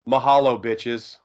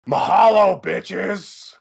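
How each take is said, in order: First: It is said in his normal voice. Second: It is said in a Freddy Krueger voice.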